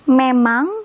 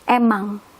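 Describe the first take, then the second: First: The word starts with an m sound. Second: The word starts with a vowel, no m.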